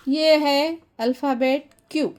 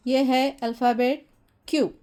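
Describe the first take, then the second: No difference in how they are said.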